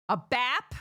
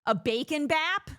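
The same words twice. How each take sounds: First: Bap with a flat, hard American A, raised and louder. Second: American accent on bacon bap, pitched up and louder. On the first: Demoing an American bap for the audience, hard A. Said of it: "A hard A". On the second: Showing off her American bacon bap, American accent. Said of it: "the American A". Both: Shown as a demonstration.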